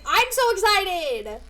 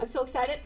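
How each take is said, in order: First: High, loud, drawn-out excitement; slow, loud, thrilled cry; excited squeal. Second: Said in the usual way. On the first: Real, not acted. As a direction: stretch it out, bursting with glee.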